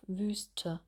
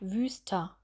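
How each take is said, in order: First: The word ends in a short schwa vowel. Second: The word ends in an open a-like vowel. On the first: The speaker calls it right. "bei Wüste geht er nicht so weit auf" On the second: The speaker calls it wrong. "Dass man sagt Wüster"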